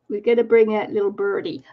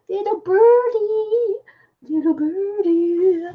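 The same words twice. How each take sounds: First: Said in the usual way. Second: High, slow cooing little birdie; sing-song high baby talk, slow. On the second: Pretend. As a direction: coo it like to a pet bird. Cooing over a bird sticker.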